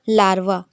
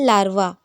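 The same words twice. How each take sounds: No difference in how they are said.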